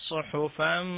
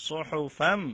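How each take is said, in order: The two takes are said the same way.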